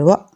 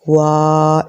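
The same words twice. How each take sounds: First: The vowel is cut off with a jerk. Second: The vowel is drawn out long. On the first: "झटका लग जाता है" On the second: "लंबा नहीं करना, ... ऐसे नहीं पढ़ना"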